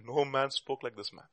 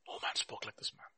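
First: Said in the usual way. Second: Near-whispered repeat, very soft; barely voiced, hushed repetition; hushed echo. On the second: Real, not acted. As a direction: let it sink in under your breath. Repeats the quote in awe.

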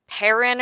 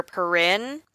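First: "Perrin" stressed on the first syllable, PAIR-in. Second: "Perrin" stressed on the second syllable, puh-RIN. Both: Shown as a demonstration. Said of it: "not totally sure how they pronounced it".

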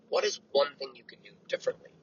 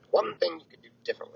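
First: Said in the usual way. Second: One lifted higher and leaned on; stress on One. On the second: Shown as a demonstration. Repeating the question for listeners, stress on One.

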